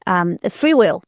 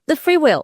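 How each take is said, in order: First: Said in the usual way. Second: Free said higher and pushed; a higher, leaned-on "free"; stress on free. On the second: Real, not acted. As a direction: lift and lean on "free" in "the free will". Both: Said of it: "repeats with emphasis".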